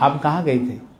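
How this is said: It sounds like a genuine, curious question.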